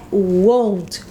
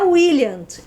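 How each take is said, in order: First: The word has the vowel of own. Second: The word keeps the vowel of will. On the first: The speaker calls it right. "é won't" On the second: The speaker calls it wrong. "Não é williant"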